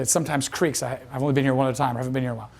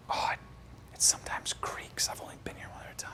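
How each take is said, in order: First: Said in the usual way. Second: Hushed, secretive explanation; whispered excuse. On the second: Retold or imitated. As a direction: whisper it while sneaking in. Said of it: "I'm still, like, whispering it".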